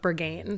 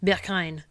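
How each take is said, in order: First: It is said with an American pronunciation. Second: It is said with a German pronunciation. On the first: "Americans say it like Berghain" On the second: "the German pronunciation is like Berghain"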